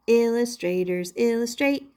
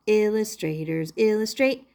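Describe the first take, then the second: No difference in how they are said.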